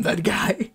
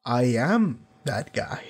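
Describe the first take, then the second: First: Slow menacing whisper; whispered tough guy line. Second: Slow, lower, deliberate tough guy delivery; mock tough guy, slow and low; slow menacing line. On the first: Retold or imitated. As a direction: hiss it like a threat, slowly. Imagining Amos's killer line. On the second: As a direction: let each word land slowly like a tough guy. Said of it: "slowly turned around and went".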